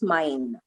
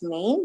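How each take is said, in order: First: It is pronounced with German vowel sounds. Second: It is pronounced with English vowel sounds. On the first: "but of Deutsch, it's mein" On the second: "In English, it's main"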